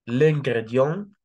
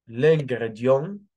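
Both takes have the same delivery.

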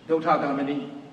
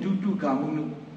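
First: The name is said ending in 'gamini'. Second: The name is said ending in 'gamunu'. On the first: This is the Burmese form of the name. "Bami pronunciation" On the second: This is the Sinhala form of the name. "Sihila pronunciation"

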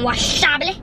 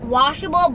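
First: The word is pronounced with English sounds. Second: The word is pronounced with Spanish-style sounds. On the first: It is the intended word. The speaker calls it right. "but you know you mean washable" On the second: It imitates the earlier mispronunciation. The speaker calls it wrong. "she was talking Spanglish"

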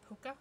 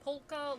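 First: The L sound is left out. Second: The L sound is clearly pronounced. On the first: "I never pronounce the L though" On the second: "Polka dots has an L in it. So it's really polka dots"

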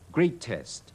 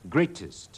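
First: The final syllable has a full vowel. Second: The final syllable has a reduced vowel. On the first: The speaker calls it wrong. "將個less test 讀翻個原本音出嚟係錯" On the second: The speaker calls it right. "咁先至叫啱"

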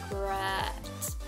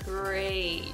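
First: The vowel is short, not a long A. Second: The vowel is a long A sound. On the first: The speaker calls it wrong. "Another mispronunciation that I often hear, again with the A sound" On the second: The speaker calls it right. "long A"

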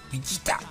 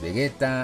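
First: The name is pronounced flattened and odd-sounding. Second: The name is pronounced in an ordinary, unflattened way. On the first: "Así, todo aplastado y raro" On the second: "En Latinoamérica es Vegeta"

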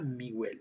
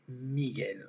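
First: The u is pronounced as a separate sound. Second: The u is silent after the g. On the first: The speaker calls it wrong. "C'est pas Miguel" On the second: The speaker calls it right. "c'est Miguel"

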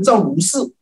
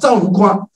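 First: The last syllable is pronounced shi. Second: The last syllable is pronounced kuo. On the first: The speaker calls it wrong. "不要念成赵如氏" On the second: The speaker calls it right. "这个念叫做赵如夸"

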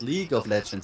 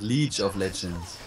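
First: The first word ends with a hard g sound. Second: The first word ends with a ch sound, like leech. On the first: The speaker calls it right. "It's League, like Champions League from soccer" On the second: The speaker calls it wrong.

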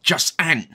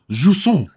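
First: The word is said broadly British, ending like 'ant'. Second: The word is said without a broad British accent.

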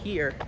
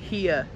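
First: It is said without a New York accent. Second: It is said in a New York accent. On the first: "instead of here" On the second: "people will be like... they'll say here"

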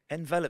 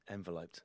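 First: The stress falls on the second syllable. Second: The stress falls on the first syllable. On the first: It is the verb: to wrap around someone. The speaker calls it right. "Enveloped sounds so much nicer" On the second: It sounds like putting someone in a package. The speaker calls it wrong. "if you said to someone you were going to envelope them, it makes it sound slightly like you're going to stick them in a package"

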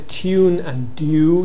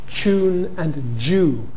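First: A separate y sound follows t and d. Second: The t and d merge with y into ch and j. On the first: "If you don't drop the yod and you say tune and do" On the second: "you may coalesce it to ch"

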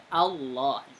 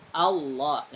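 Both takes have the same delivery.

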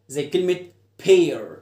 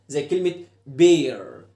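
The two takes are said the same way.

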